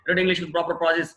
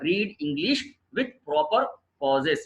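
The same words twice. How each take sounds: First: It is read in one run without pauses. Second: It is read with pauses between the phrases.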